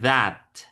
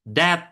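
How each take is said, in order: First: The first sound is a voiced th. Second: The first sound is not a voiced th. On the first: The speaker calls it right. "That itu pakai suara zal ya" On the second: The speaker calls it wrong. "bukan that that gitu ya"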